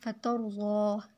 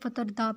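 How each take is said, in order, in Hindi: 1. बीच का व्यंजन 'z' जैसा सुनाई देता है। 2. बीच का व्यंजन सादा 'd' जैसा सुनाई देता है। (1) "इसका माना है आप राज़ी हो जाएंगे" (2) "लोग इसे फ़तरदा पढ़ते हैं"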